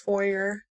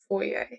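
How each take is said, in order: First: It is said the everyday Southern way. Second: It is said the fancy, old-English-accent way. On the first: This is how most people in the South say it. The speaker calls it wrong. "Everybody in the South, South says foyer, and I hate it" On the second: This version sounds more refined. The speaker calls it right. "It sounds so much fancier. It's like a old English accent"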